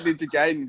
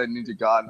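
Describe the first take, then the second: First: Gaiden said GAY-den; old pronunciation. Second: Garden said GUY-den, for Gaiden; others' pronunciation. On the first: Admitting how they used to say it, Gaiden as GAY-den. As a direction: say Gaiden with an "ay" vowel. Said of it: "I always used to call it". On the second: Repeating what other people say, Garden as GUY-den. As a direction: say Garden as Gaiden with an "eye" vowel. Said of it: "I've heard people say". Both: Shown as a demonstration.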